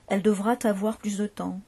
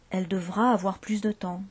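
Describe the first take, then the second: First: A T sound joins the words. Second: No T sound joins the words. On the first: The speaker calls it wrong. "une liaison qui est impossible" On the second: The speaker calls it right. "il ne faut pas faire de liaison"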